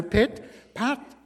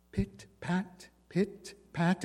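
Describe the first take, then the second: First: Nearer footsteps. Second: Pit, pat said soft and hushed, far off; hushed pit, pat like steps heard through walls; soft distant footsteps. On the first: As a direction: let pit, pat arrive right at the door. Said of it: "coming faster". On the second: Narrator voices the dog's steps on the landing, softly. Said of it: "It was on the second landing". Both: A narrator's reading.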